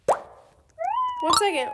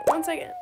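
First: Drawn out, sung high and slow; long singsong hold please; one second. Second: Said in the usual way. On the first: Real, not acted. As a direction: stretch it out high like a singsong plea. Asking viewers to wait, drawn out.

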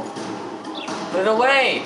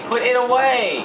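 First: Drawn-out furious demand, each word stretched; angry yell. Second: Sharp loud shout, higher, ending hard on away. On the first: Gamer yelling at his stubborn character, stretched angry demand. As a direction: plead and yell at once, dragging it out. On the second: Gamer screaming at his character to sheathe, loud shout. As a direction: bark the order louder and quicker. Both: Real, not acted.

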